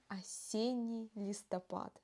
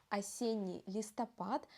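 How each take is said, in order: Both takes have the same delivery.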